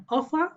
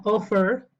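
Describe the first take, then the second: First: "offer" ending in an open "uh" vowel, r silent; offer without r. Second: "offer" ending in a pronounced r. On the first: Teacher gives one possible pronunciation, "offer" with silent r. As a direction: say "offer" as "offa". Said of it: "Esto puede ser offer". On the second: Teacher gives the alternative pronunciation, "offer" with audible r. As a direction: say "offer" with the final r sounded. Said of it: "o offer". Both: Shown as a demonstration.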